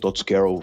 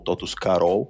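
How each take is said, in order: First: The name is said with American English pronunciation. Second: The name is said with Brazilian Portuguese pronunciation. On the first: This is the form that spread in the United States. "por ter nascido majoritariamente nos Estados Unidos, a pronúncia Tots Carol se tornou muito comum" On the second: This is how Brazilian customers read the brand. "os próprios clientes começarem a ler a marca e começar a pronunciar"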